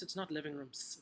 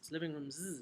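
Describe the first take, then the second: First: The word ends with a hissing s sound. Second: The word ends with a sound other than s. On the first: The speaker calls it wrong. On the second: The speaker calls it right.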